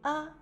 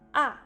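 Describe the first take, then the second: First: The syllable is said lightly and briefly. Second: The pitch drops quickly from high to low. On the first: "au cinquième ton, il prononce légèrement et court" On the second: "au quatrième temps, le son descend rapidement"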